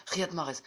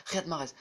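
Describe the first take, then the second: No difference in how they are said.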